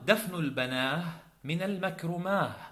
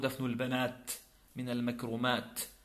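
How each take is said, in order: First: The plural words end with an h sound. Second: The plural words end with a t sound. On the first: The speaker calls it wrong. "هذا من غير الأفصح، أن تقف بالهاء على الجمع" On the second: The speaker calls it right. "أصله"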